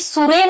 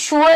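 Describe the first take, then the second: First: It begins with an s sound. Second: It begins with an sh sound. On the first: The speaker calls it wrong. "हे सुरे नाही" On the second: The speaker calls it right. "शुअर आहे"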